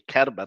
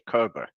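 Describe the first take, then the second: First: The name is said with German pronunciation. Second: The name is said with English pronunciation. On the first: "that's why you say Kerber in German" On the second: "In English, you would say Kerber"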